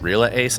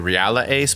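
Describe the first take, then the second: First: The start does not sound like Real Madrid. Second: The start sounds like Real in Real Madrid. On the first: "but maybe it's just Reala Ace" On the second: "I follow football, soccer, so I think like Real Madrid. So I say Reala Ace"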